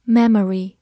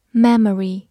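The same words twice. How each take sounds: The two takes are said the same way.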